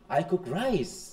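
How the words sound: The stress falls on the word rice. The rice is the thing being acted on. "রাইসের উপর"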